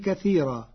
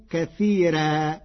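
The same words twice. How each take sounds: First: Said in the usual way. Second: كثيرا with a thin, light r, slowly; Warsh reading. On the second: Shown as a demonstration. (كثيرا بترقيق الراء) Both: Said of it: "بترقيق الراء".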